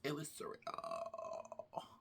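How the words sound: It is said imitating her voice.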